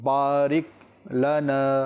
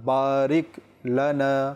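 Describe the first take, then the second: The two takes are said the same way.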